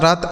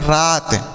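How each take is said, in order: First: The vowel is cut short. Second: The vowel is drawn out long. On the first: The speaker calls it wrong. "इस तरीके से नहीं पढ़ते हैं" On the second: The speaker calls it right. "हम रात को थोड़ा सा खींच कर पढ़ते हैं। जैसे पढ़ते हैं"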